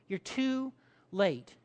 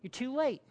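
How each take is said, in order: First: Slow, with a pause before LATE; drawn-out, measured reproach; slow accusation. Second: Higher-pitched mild accusation; accusing. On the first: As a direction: spell out the reproach word by word. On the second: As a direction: accuse him, without raising the volume. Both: Acted. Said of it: "There's the accusation".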